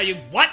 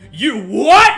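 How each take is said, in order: First: It is said mildly, without much force. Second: It is said intensely, with strong force.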